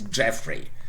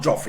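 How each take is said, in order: First: The first vowel sounds like the one in 'jet'. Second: The first vowel sounds like the one in 'jot'. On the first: The speaker calls it right. "It's Jeffrey" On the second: The speaker calls it wrong. "It's not Joffrey"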